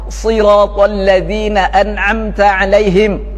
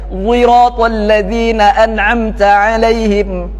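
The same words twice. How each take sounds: First: The first word starts with an emphatic s sound. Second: The first word starts with a rounded z-like sound. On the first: "Kemudian dengan sad" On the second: "dengan ismam sad, sautu zai, dimonyongkan"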